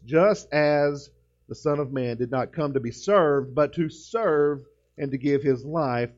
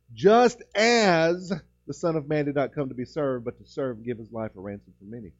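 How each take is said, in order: First: "Just as" read slowly and evenly, no word punched; measured reading of the verse; steady pulpit reading, slowly; slow scripture reading. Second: Preacher driving home "Just as"; stress on just as. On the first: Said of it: "You could put an emphasis on just about every word". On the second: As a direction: punch "Just as" then hurry through. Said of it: "the emphasis there is, is on just as". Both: Shown as a demonstration.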